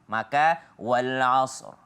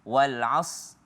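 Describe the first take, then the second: First: The final r sound is clearly pronounced, heavy. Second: The final r sound is left out. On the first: The speaker calls it right. "Ro-nya tebal" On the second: The speaker calls it wrong. "ro-nya kemana?"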